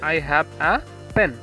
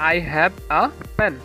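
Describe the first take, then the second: No difference in how they are said.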